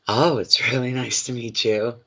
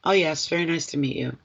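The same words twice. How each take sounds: First: Gushing, overeager greeting, lightly hammed up; mock desperate. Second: Offhand, unbothered greeting, a bit softer; breezy, as if it hardly matters; nonchalant. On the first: Psychic shows client how a desperate dater sounds, mock gushing. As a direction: play it too keen, clinging to every word. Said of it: "you're not desperate". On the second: Pretend. Psychic shows client how to greet a new date, offhand and nonchalant. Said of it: "nonchalant kind of an attitude".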